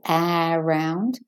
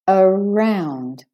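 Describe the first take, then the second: First: The first vowel is a full vowel. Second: The first vowel is a short schwa. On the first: The speaker calls it wrong. "It's not A round" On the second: The speaker calls it right. "And the A becomes a schwa. So it's it's short"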